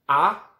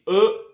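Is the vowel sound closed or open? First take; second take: open; closed. First: The vowel is open and bright. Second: The vowel is closed and darker. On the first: The speaker calls it right. "como se ela estivesse fazendo uma vogal com acento agudo" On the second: The speaker calls it wrong. "ao invés de"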